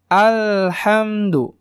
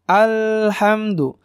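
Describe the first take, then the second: No difference in how they are said.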